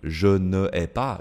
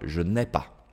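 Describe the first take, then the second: First: The vowel of ne is kept before the verb. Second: The vowel of ne is dropped and joined on. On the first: The speaker calls it wrong. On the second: The speaker calls it right.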